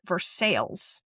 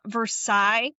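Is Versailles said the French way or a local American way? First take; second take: local; French. First: It is said with a local American pronunciation. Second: It is said like the French city's name. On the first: "I think they pronounce it Versailles" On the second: "It's not Versailles like France"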